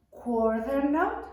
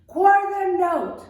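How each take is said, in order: First: Said in the usual way. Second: Loud shout of quarter note; louder. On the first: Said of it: "Let me hear you say". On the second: Shown as a demonstration. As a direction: belt out quarter note, much louder and higher. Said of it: "Can you say it louder?".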